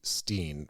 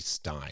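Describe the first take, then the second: First: The vowel sounds like 'ee'. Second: The vowel sounds like 'eye'. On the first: "S T E I N, so that would be Steen" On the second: "an S T I E N, which would be Stein"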